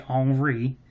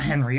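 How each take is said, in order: First: The name is said with French pronunciation. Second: The name is said with English pronunciation. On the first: The speaker calls it right. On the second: The speaker calls it wrong.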